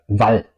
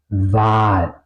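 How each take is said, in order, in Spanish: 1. La vocal es corta. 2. La vocal es larga. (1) "Si vais a pronunciar ese A corta sería Val" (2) "¿Por qué suena ese A larga?"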